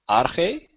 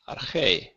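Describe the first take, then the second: First: The stress is on the first syllable. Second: The stress is on the second syllable. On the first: The speaker calls it wrong. "So it's not arche" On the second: The speaker calls it right. "the stress falls on the syllable or the letter that has the little accent mark"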